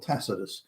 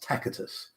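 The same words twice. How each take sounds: First: The middle consonant is a soft S sound. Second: The middle consonant is a hard K sound. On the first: This is the later pronunciation. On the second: This is the old Latin pronunciation.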